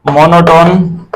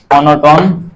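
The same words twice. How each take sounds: First: Stretched out very slowly, every sound drawn long; slow dictation. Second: Said in the usual way. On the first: Shown as a demonstration. Teacher to students taking notes, slow dictation. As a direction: spell it out slowly for the class to write. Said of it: "teacher dictating the term". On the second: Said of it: "repeating the term again".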